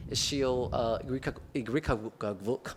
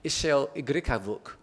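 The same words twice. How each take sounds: First: Igrikavuk stumbled over, broken off and restarted; halting, slow attempt at Igrikavuk; mispronounced name. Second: Igrikavuk said in one go, without breaking off; higher second try at Ishil Igrikavuk, no stumble; corrected name. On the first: Curator fumbling a Turkish artist's name, mispronounced. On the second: Curator retrying the artist's name, corrected pronunciation. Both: Real, not acted. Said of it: "I'm mispronouncing her name".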